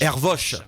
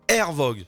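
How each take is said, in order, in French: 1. Le nom se termine par un son sh. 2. Le nom se termine par un g dur. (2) "je le prononce bien ? / Non"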